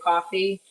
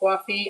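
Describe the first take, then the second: First: It is said with a General American accent. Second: It is said with an East Coast accent. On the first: The speaker calls it right. "American Standardized English" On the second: The speaker calls it wrong. "I don't say coffee"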